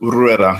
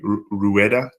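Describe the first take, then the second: First: It flows smoothly with a rolled R. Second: It is broken apart into two chopped syllables. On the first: The speaker calls it right. "You have to put a little roll on the R" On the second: The speaker calls it wrong. "the worst and most commonly one"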